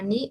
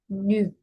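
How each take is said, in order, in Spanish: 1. Es una ee con labios estirados. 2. Es una ee con labios redondeados. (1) "no es una ni" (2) "es ñu"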